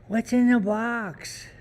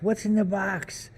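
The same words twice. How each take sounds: First: Much higher and slow, drawn out; тянет фразу высоко и медленно; desperate movie quote. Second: Пародия на цитату из фильма; высоким голосом, как в кино; movie quote, high. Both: Pretend.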